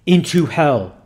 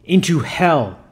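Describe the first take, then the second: First: Louder, punched priestly order; mildly fierce exorcist's reply, firm and loud; fierce command. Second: Firm priestly command, mildly acted; understated exorcist's command. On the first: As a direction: repeat the order with restrained ferocity. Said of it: "fiercely repeated reply". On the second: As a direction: order the demon away firmly. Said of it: "commanded the man of God". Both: A narrator's reading.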